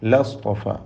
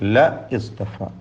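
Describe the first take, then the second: First: The two words are run together. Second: The two words are said separately. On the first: The speaker calls it right. "ലസ്തഫ എന്ന് ചേർത്ത് ഓതേണ്ടതാണ്" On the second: The speaker calls it wrong. "ല ഇസ്തഫ എന്നുള്ളത്"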